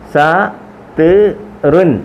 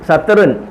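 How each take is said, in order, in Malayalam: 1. ഓരോ അക്ഷരവും ഇടവേളകളോടെ വേറെ വേറെയായി പറയുന്നു. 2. അക്ഷരങ്ങൾ ഇടവേളയില്ലാതെ വേഗത്തിൽ ചേർത്ത് പറയുന്നു.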